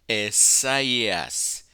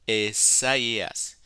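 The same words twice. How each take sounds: No difference in how they are said.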